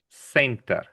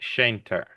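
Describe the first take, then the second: First: It begins with an s sound. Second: It begins with a sh sound. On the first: The speaker calls it right. "We say center. We just pronounce it like an S" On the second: The speaker calls it wrong. "We don't say center. It's not a sh sound"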